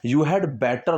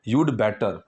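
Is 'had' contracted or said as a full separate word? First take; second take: full; contracted. First: 'Had' is said as a full separate word. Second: 'Had' is contracted onto 'you' as 'you'd'. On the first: "इस हैड को अलग से करके भी बोलते हैं" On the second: "ये होता है हैड. यूड better"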